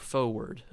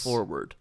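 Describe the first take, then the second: First: The first syllable sounds like 'foe'. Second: The first syllable sounds like 'for'.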